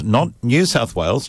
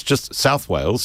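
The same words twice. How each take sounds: First: New lifted and leaned on; a corrective stress on the word New. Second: Just pushed up to insist; insisting just with a lift; stress on just. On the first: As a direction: hit New to set it apart from plain South Wales. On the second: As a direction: lean on just to correct yourself. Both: Shown as a demonstration.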